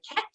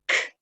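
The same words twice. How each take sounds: First: Said in the usual way. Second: "Cat." split into its separate sounds; sounded out. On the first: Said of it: "join them together to say". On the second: Shown as a demonstration. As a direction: say each sound of "Cat." apart. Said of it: "what word am I trying to say".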